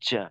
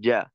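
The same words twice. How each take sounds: First: The consonant has an airy, hissing buzz mixed in. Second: The consonant is clean without any airy buzz. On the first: The speaker calls it wrong. "এভাবে একটু কিছুটা বাতাসের মতো আওয়াজ থাকে" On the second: The speaker calls it right. "তেমনটা না হয়ে উচ্চারণটা ক্লিয়ার করা।"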